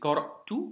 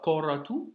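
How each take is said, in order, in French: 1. Un léger blocage glottal vient avant la dernière syllabe. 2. Le mot s'écoule sans accroc au milieu. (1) "petit blocage, léger" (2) "c'est pas"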